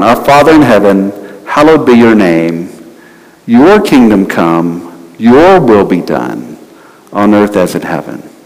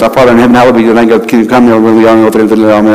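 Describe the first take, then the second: First: It is said slowly and deliberately. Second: It is said fast, without much thought.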